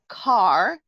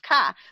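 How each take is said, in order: First: The r after the vowel is pronounced. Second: The r is dropped, New England style.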